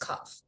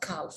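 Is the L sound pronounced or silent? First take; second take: silent; pronounced. First: The L sound is silent. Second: The L sound is pronounced. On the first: The speaker calls it right. "it's a calf" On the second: The speaker calls it wrong. "It's not calf"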